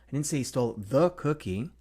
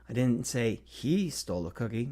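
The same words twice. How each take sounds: First: The stress is on the word the. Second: The stress is on the word he.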